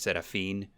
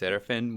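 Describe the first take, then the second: First: The name is said with a Spanish pronunciation. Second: The name is said with an English pronunciation. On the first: This is how the name's owner says it. "I always pronounce it in the Spanish way" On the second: This is how other people usually say it. "people always say it's Seraphin"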